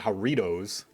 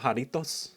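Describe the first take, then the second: First: The name is said with English pronunciation. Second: The name is said with Spanish pronunciation. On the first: The speaker sounds like an ignorant tourist. "I just feel like a like a dumb tourist" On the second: The speaker sounds pretentious. "pronounce it the way that it's meant to be pronounced"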